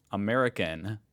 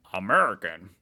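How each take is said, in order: First: Said in the usual way. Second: "American" louder and punched; emphatic repeat. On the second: Shown as a demonstration. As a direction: hit "American." hard, with emphasis. Same word repeated with louder emphasis.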